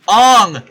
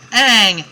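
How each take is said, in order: First: The vowel is the o of song. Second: The vowel is the short a of bang. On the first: The speaker calls it wrong. "No, try again" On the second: The speaker calls it right. "every episode you hear "ang"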